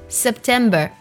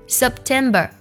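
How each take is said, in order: Both takes have the same delivery.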